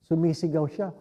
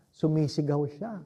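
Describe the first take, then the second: No difference in how they are said.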